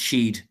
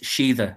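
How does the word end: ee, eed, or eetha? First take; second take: eed; eetha. First: It is one syllable ending in a d sound. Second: It has two syllables ending in an eetha sound. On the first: This is the oldest form. "an older pronunciation than that, which is Sheed" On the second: This is an older form. "an older pronunciation, the older one, is Sheetha"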